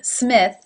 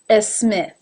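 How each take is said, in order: First: The word starts directly with the S sound. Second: A short vowel sound comes before the S. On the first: The speaker calls it right. "instead of Smith" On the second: The speaker calls it wrong. "I sometimes hear a Smith"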